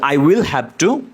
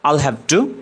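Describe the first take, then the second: First: "I will" is said as two full words. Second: "I will" is shortened to one syllable.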